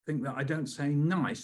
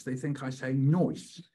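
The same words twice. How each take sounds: First: Said in the usual way. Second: "noise" with an oi vowel, slowed; nice said as "noise"; pronounced noise. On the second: Shown as a demonstration.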